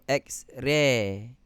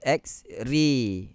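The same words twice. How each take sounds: First: The vowel in ray is plain and open. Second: The vowel in ray leans toward ee. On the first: The speaker calls it wrong. "Kita tak sebut X-ray" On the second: The speaker calls it right. "Dia lebih ke bawah. Condong"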